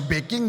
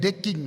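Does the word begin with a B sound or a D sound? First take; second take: B; D. First: The word begins with a B sound. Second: The word begins with a D sound. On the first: The speaker calls it right. "Harusnya backing" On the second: The speaker calls it wrong. "Orang Medan itu susah membedakan B dengan D"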